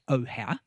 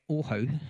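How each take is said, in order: First: The name is pronounced the usual English way. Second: The name is pronounced the Māori way. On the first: "which we Pākehā usually pronounce as" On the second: "I'm just trying to get my kupu right"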